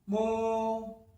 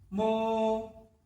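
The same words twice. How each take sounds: The two takes are said the same way.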